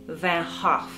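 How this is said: The name is said in a Dutch pronunciation. "the Dutch pronounce it"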